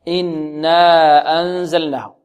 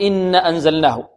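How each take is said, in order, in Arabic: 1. الحركة بعد النون ممدودة. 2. الحركة بعد النون قصيرة. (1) "مد الألف بمقدار حركتين هكذا" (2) "لا نقول إن أنزلناه"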